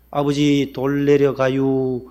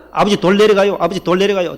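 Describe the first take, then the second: First: Each word dragged out slow, Chungcheong style; very slow drawl. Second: The warning called out louder and higher, in practice; louder faster drill. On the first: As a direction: stretch the warning out far too slowly. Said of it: "얼마나 늦게 했는지". (돌 내려간다고 아주 느릿느릿 늘어지게) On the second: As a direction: bark the warning out quickly like a drill. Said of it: "빨리빨리 해봐라". (아들이 병원에서 연습하며 크고 빠르게 외침) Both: Retold or imitated.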